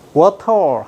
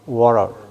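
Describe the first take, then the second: First: The t in the middle is clearly pronounced. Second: The t in the middle is not pronounced. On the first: This is the European way of saying it. "워터 하는 건 유럽식 발음이고" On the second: This is the American way of saying it. "T 발음하는 것은 미국에서는 묵음이... water 이렇게 발음한다"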